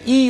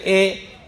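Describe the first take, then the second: First: The vowel sounds like 'ee'. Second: The vowel sounds like 'e'. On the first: The speaker calls it right. "अलिफ जेर ई होता है" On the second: The speaker calls it wrong. "मजहूल तरीके से आम हो गया अलिफ जेर ए"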